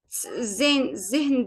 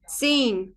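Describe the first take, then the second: First: The word begins with a plain buzzing z sound. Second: The word begins with a hissing ts sound. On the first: The speaker calls it wrong. "Mesela zehn diye okumuyoruz" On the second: The speaker calls it right. "Bu z'yi tıs diye çıkarır"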